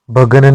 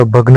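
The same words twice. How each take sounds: First: भगन with a vowel between ग and न; wrong form. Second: भग्न with a joined ग्न; correct form. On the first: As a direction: say भगन as three syllables. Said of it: "भगन नहीं होता". (गलत उच्चारण भगन) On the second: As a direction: say भग्न as two syllables, gn together. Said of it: "भग्न होता है". (सही उच्चारण भग्न) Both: Shown as a demonstration.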